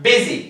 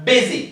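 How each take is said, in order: Both takes have the same delivery.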